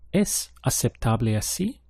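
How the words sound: It is said with question intonation. It asks a question. "Is it acceptable this way?"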